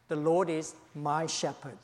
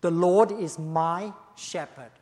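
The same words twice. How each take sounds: First: Said in the usual way. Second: Slow and louder, every word weighted; declaring it firmly as David's own claim; emphatic. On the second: Shown as a demonstration. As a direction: lean hard into The Lord is my shepherd. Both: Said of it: "he said very emphatically".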